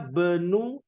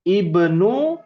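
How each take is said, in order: First: The opening vowel is dropped, joined to the word before. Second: The word begins with an audible i vowel. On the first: The word is joined to a preceding word. "kalau disambung dari ana menjadi ana benu Abbasin" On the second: The word stands alone with nothing before it. "Kalau ananya hilang dibacanya ibnu"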